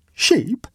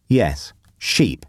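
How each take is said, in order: First: High, astonished one-word question; incredulous exclamation. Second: Said in the usual way. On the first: A narrator's reading. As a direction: echo it back in high-pitched disbelief. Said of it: "exclaimed Waldo". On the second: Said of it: "was the reply".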